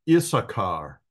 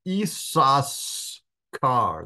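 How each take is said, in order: First: The middle is said without an s before k. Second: The middle is said with an s before k. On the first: This is the usual way people say it. "the typical pronunciation of this is" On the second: This follows the Hebrew letters. "the actual pronunciation of this Hebrew word is"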